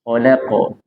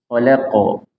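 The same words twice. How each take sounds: No difference in how they are said.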